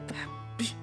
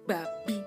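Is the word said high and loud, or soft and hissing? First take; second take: soft and hissing; high and loud. First: The word is said thin, quiet and hissing. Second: The word is said high-pitched and forcefully. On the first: It sounds like mocking or teasing someone. "gak boleh pakai nada tipis seperti mendesis" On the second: It sounds like cursing at someone. "Gak boleh pakai nada tinggi"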